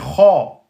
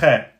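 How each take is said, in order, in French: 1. La voyelle est profonde et postérieure, elle sonne emphatique. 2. La voyelle est claire et antérieure, elle sonne simple. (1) "là c'est Kha" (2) "C'est pas Khe"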